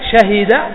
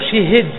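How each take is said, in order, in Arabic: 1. الحرف الأول عليه فتحة، والثاني عليه كسرة. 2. الحرف الأول عليه كسرة، والثاني عليه كسرة. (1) "نقول شاهي شهد" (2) "شي شي والهاء أيضا مكسور"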